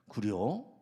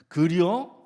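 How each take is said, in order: First: It sounds curious. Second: It sounds angry.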